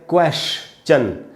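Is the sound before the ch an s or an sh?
sh. An sh sound comes before the ch. This is the American pronunciation. "American English में ये होता है क्वेश्चन, श लगाते हैं"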